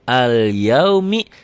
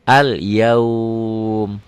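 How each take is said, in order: First: The word ends with a short vowel. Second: The word ends on a consonant. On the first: The reader continues without stopping. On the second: The reader stops on this word.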